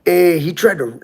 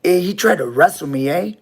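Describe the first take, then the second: First: Put-on a light Spanglish accent on the robber's words, a bit higher and louder; imitating Spanglish accent. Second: Higher, louder mock Spanglish accent, "eh" tagged on; imitating Spanglish accent. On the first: Mugger bragging to his crew, in a light Spanglish accent. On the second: Robber bragging in the getaway car, in a mock Spanglish accent. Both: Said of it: "Spanish English, uh, accent".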